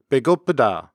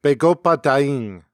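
First: Said in the usual way. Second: "Begoppadaing" with the ing tag on the end; Jala accent phrase. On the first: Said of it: "In standard Korean". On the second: Shown as a demonstration. Showing how Jala speakers say they are hungry, Jala accent. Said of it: "In the Jala accent, one might say".

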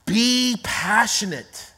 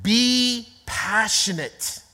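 First: Be passionate repeated slow and steady; repeated slow point. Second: Be passionate said slow, each word weighted; slow emphatic point. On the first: Preacher repeating point one to congregation, slow and firm. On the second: Preacher stating point one to congregation, slow and weighty. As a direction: lay down the point slowly. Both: Shown as a demonstration. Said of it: "Number one is this".

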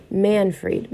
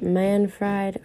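First: Manfred with the ending said like "freed"; tentative "Manfred", long ee in the second syllable; unsure pronunciation. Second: Manfred with the ending said like "fried"; second guess at "Manfred", long i in the last syllable; unsure alternative pronunciation. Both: Real, not acted. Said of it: "not sure if I'm pronouncing that correctly".

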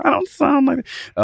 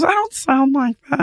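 First: Very high echo of her protest; mocking her back. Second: Very high sweet voice, mock protest; Blake protesting. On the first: Actor mocking Blake's denial in high voice. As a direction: parrot her squeak right back. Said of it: "and I go". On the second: Imitating Blake denying she sounds high. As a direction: squeal the denial up high. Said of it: "my impression of her whenever I do it".

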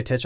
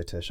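First: Tisch said as "titch"; mispronounced Tisch. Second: Tisch said as "tish"; intended pronunciation of Tisch. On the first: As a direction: repeat the slip, Tisch ending in "tch". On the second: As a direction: end Tisch on a soft "sh". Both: Shown as a demonstration. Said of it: "I meant to say Tisch".

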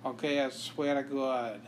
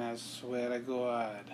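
First: Said in the usual way. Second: Slow Boston "I swear to God" with a dropped R; Boston accent. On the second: Shown as a demonstration. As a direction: stretch "God" into a Boston "Gawd". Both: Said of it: "And my Boston accent".

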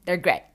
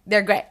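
First: Giggling in disbelief; laughing. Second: Louder, stressing the discovery; emphatic repeat. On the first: Laughing to viewers about her gray jeans, amused. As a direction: say it through a laugh. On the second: Repeating to viewers that the jeans are gray, louder. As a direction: punch it out in disbelief. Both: Real, not acted.

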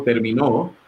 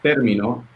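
First: Terminó said ter-mi-NÓ, last syllable stressed; terminó ending on a stressed NÓ; stress on the final O. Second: Término said TÉR-mi-no, first syllable leaning up; término with a rising TÉR; stress on TÉR. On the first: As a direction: push the weight onto the final O of terminó. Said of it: "si le ponemos en la última, que es la O". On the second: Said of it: "si le ponemos la tilde en la primera sílaba". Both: Shown as a demonstration.

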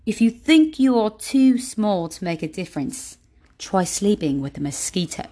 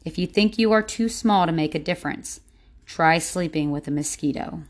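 First: Playful imitation of an author's accent; Jay Shetty's accent. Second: Said in the usual way. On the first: Shown as a demonstration. Podcaster rereading a favorite quote for listeners, imitated Jay Shetty accent. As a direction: put on the author's accent, stressing key words. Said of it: "read it in Jay Shetty's, um, accent". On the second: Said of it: "I'm gonna read it again".

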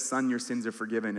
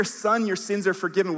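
First: Gentle forgiveness. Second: Loud, ringing proclamation from the pulpit; proclaimed forgiveness. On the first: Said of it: "He says". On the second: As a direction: announce it boldly to the whole room. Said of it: "when we hear". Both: Acted.

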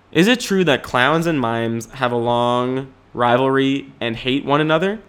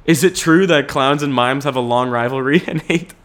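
First: Said in the usual way. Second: Reading it out while laughing. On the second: Real, not acted. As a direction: giggle through the question. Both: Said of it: "Someone asked the question".

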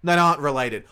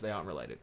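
First: Louder, quick burst of realization; surprised blurt. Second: Said in the usual way. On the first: Real, not acted. Co-host reads the search result aloud, surprised and loud. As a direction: blurt it out like you just found the answer.

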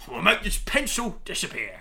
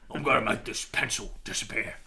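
First: Higher comic English villain; put-on English magician's patter; Joker, English accent. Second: Put-on English accent, unhurried; Ray Winston. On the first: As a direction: announce it in a mock-English accent. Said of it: "the Joker had an English accent". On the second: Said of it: "like, a Ray Winston".

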